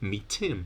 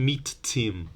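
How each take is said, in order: First: The two t sounds merge into one. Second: Both t sounds are pronounced separately. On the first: The speaker calls it right. "You delete one and you just say meet Tim" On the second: The speaker calls it wrong. "You don't do two t's"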